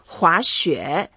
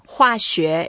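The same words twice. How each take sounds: First: The first syllable does not have a falling tone. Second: The first syllable has a falling tone. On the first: The word means skiing. "滑雪 is skiing" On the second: The word means chemistry. "滑雪 is chemistry. 滑 here is the fourth tone"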